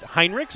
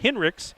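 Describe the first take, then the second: First: The first syllable has the vowel of 'high'. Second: The first syllable has the vowel of 'hin'. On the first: This is the common but mistaken pronunciation. The speaker calls it wrong. "I think in the past I've I pronounced it Heinrichs" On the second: This is how the name is actually pronounced. The speaker calls it right. "I was told by your coach it is in fact Hinrichs"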